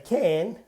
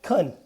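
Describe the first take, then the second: First: The word is full and stressed. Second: The word is weak and unstressed. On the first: "in short answers, we stress can and can't" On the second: "can is not stressed. So we say like can"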